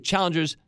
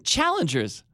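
First: It is said in a plain, flat way. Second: It is said loudly and excitedly.

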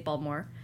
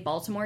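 First: The word is said in a local Baltimore accent. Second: The word is said in a standard accent. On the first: This is how locals say it. The speaker calls it right. "you'd say Baltimore. You would say, you pronounce your O's like this" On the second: This is not how locals say it. The speaker calls it wrong. "you wouldn't say Baltimore"

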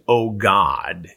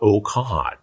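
First: The word begins with a voiced G sound. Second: The word begins with a voiceless K sound. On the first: "instead of saying, oh God" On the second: "it came out, oh cod, like C-A-W-D"

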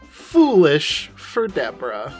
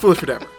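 First: It is said at a normal, separated pace. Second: It is said quickly in one breath.

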